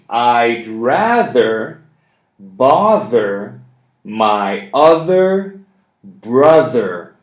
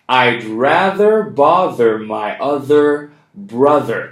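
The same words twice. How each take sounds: First: The sentence is spoken slowly. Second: The sentence is spoken fast. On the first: "One more time. Slowly" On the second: "We're going to do it fast now"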